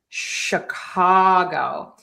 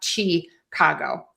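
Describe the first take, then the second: First: The word begins with a sh sound. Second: The word begins with a ch sound. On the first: The speaker calls it right. "It is sh, Chicago" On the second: The speaker calls it wrong. "we're going to say an S H, not a C H. It is not Chicago"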